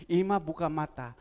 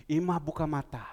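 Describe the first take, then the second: No difference in how they are said.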